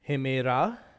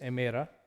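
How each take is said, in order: First: The word begins with an h sound. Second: The word begins directly with a vowel. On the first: This is the older pronunciation with rough breathing. "why we're saying it uh, with the h sound" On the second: This is the modern pronunciation. "in the Koine modern pronunciation is emera"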